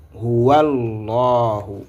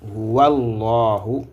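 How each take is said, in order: First: The two words run together as one. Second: The same.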